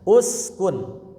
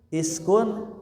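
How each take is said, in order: First: The word begins with a 'u' vowel. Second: The word begins with an 'i' vowel. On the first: The speaker calls it right. "salahnya uskun" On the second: The speaker calls it wrong. "jangan askun iskun"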